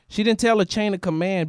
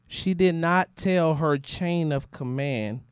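First: The sentence is spoken at a normal, quicker pace. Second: The sentence is spoken at a slower, deliberate pace.

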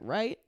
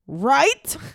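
First: It is said at a normal, quiet level. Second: It is said loudly and with strong emphasis.

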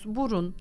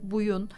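First: The middle consonant is an r sound. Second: The middle consonant is a y sound. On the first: This is the proper adult form. The speaker calls it right. "annenin babanın o kelimeyi uygun bir şekilde söylemesini istiyoruz" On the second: This is how a baby says it. The speaker calls it wrong. "bebekler onu bir buyun gibi ya da suya bu gibi farklı isimlendirmeler kullanırlar"

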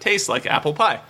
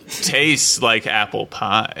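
First: It is said in an ordinary speaking voice. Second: It is said in a soft, sultry put-on voice. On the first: The speaker calls it wrong. "It was also supposed to come out in the voice. / It sure didn't" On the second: The speaker calls it right. "That's getting a little turned on. / It's like a massage"

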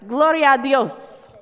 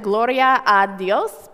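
First: The words run together into one blended phrase. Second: Each word is said separately and distinctly. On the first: "you kind of slur them together and it sounds like" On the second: "The words are actually"

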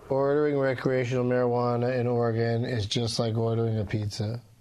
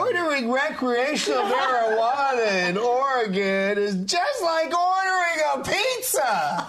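First: It is said in a sad, flat tone. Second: It is said in an excited, lively tone.

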